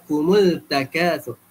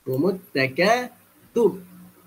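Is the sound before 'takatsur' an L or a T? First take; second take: L; T. First: An L sound is pronounced before takatsur. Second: The L merges into a doubled T sound. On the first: The speaker calls it wrong. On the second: The speaker calls it right.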